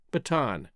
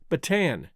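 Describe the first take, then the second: First: Bataan as "buh-TAHN", open "ah"; pronunciation demo. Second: Bataan as "buh-TAN", vowel of "cat"; alternative pronunciation. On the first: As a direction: say Bataan with a broad final "ah". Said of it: "Two indicated". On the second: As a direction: say Bataan to rhyme with "man". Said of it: "Two more indicated". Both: Shown as a demonstration.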